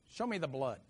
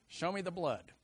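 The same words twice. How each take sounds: First: Said in the usual way. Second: Gruff dad. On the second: Retold or imitated. Repeated as men's attitude.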